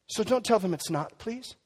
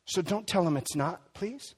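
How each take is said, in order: First: Gentle plea repeated. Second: Gentle plea. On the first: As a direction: say it again, gently insisting. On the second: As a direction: ask them tenderly, please. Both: Acted. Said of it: "repeated plea".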